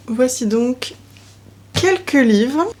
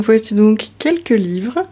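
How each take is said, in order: First: Said in the usual way. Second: Restarted intro. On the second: Shown as a demonstration. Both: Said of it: "Je disais donc".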